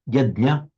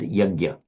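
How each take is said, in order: First: The word ends with a short 'ah' vowel. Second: The final 'ah' is barely audible. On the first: This is the Sanskrit pronunciation. "with a short ah" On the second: This is how Hindi speakers say it. "with a very tiny shadow of an ah at the end"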